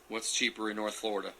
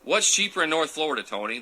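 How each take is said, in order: First: Softer question, musing to himself; quiet puzzled question. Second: Called-out question. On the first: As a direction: wonder it aloud under your breath. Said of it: "musing over viewer comment". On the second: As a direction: call the question out to Tony. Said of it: "asks viewer directly". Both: Real, not acted.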